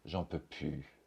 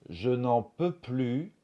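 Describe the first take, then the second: First: Sounds are dropped and the phrase is shortened. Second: Every syllable is said in full. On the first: "on va souvent dire" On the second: "Au lieu de dire"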